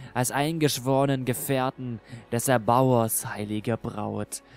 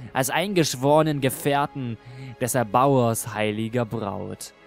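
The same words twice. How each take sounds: The two takes are said the same way.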